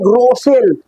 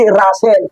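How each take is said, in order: First: The first vowel sounds like 'oh'. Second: The first vowel sounds like 'uh'. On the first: The speaker calls it wrong. "Hindi basahig" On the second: The speaker calls it right.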